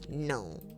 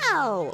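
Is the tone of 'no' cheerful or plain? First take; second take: plain; cheerful. First: The word is said in a plain, uncheerful tone. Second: The word is said in a happy, cheerful tone. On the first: It actually means no. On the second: It actually means yes.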